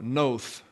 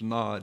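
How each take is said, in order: First: It ends in a th sound with a long vowel. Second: It ends in a d sound with a short vowel. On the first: "That's the Hebrew pronunciation. ... you have a TH on the D, and the O is long" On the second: "It's Nod here"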